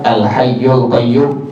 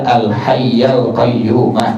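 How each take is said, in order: First: The vowel after hayy is a u. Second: The vowel after hayy is an a. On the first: The speaker calls it wrong. "jangan dibaca" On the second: The speaker calls it right.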